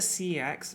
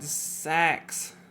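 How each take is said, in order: First: The name is said as two letters, 'C X'. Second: The name is said as one word, 'sex'. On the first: "I called it C X my entire life" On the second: "This is how you're supposed to pronounce this"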